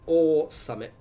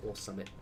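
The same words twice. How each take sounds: First: Higher, louder, emphatic English slang; loud mock-laddish repeat. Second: Soft, low throwaway English slang; low mumbled aside. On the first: Streamer playing English football fan, loud and emphatic. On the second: Pretend. Streamer playing English football fan, low throwaway aside. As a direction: toss it off low and quietly.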